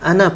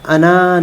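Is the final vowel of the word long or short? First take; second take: short; long. First: The final vowel is short. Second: The final vowel is drawn out long. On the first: The speaker calls it right. "अना पढ़ा जाएगा" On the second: The speaker calls it wrong. "अना नहीं पढ़ा जाएगा"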